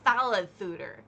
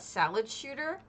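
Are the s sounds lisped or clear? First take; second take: lisped; clear. First: The s sounds are lisped like th. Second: The s sounds are clear and normal.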